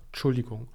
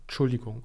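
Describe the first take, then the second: First: The opening syllable is clipped and shortened. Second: The opening syllable is clipped and shortened.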